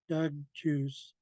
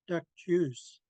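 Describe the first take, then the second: First: The first word ends in a voiced g sound. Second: The first word ends in a crisp k sound. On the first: The speaker calls it wrong. "a lot of people see it and they they say Doug Doug juice" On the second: The speaker calls it right. "simply pronounce it duck and then juice"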